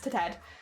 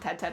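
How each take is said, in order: First: The first syllable sounds like 'to'. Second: The first syllable sounds like 'Ted'. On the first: The speaker calls it right. "It's to Ted" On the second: The speaker calls it wrong. "I always call him Ted Ted. It's not Ted Ted"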